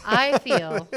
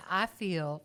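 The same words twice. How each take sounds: First: "I feel" loudly enunciated through laughter; corrected pronunciation. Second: Southern drawl slipping out, drawn out; southern accent. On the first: Southerner correcting their accent slip, "I feel" carefully re-pronounced. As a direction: say "I feel" over, louder, with a crisp full "I". Redoes the slipped words, laughing. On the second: Southerner discussing accents lets their own slip, southern drawl. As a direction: let a slow southern twang slip in. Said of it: "there's a country accent". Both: Real, not acted.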